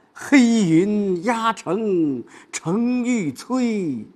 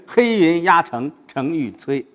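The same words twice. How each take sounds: First: High, very drawn-out recitation; wrong take. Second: Firm, slow, compact recitation; imposing momentum. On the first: Teacher showing how not to read it, high drawn-out recitation. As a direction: stretch every word out high and singsong. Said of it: "不是". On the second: Teacher showing the student how to build momentum, imposing recitation. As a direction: build the force of a looming army. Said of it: "先把这个气势给造出来". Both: Shown as a demonstration.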